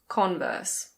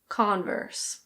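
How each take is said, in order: First: The R is silent, with a British vowel. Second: The R is pronounced, with an American vowel. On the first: "In British English, we say Converse" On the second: "the O sound is a bit different and the R is pronounced"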